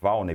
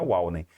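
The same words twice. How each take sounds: First: The name begins with a V sound. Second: The name begins with a W sound. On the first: The speaker calls it right. "esse W tem som de V" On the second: The speaker calls it wrong. "não é Walney"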